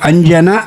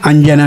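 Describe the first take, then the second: First: The name ends with a single 'na' sound. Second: The name ends with a single 'na' sound.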